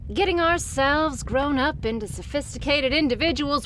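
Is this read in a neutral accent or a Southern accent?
neutral. It is read in the speaker's ordinary accent.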